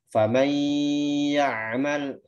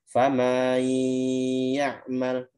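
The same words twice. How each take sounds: First: Each syllable is short, with no extra length. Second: The first word is drawn out with an extra sound. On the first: The speaker calls it right. "Seharusnya dibaca" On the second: The speaker calls it wrong. "tapi bisa dibaca"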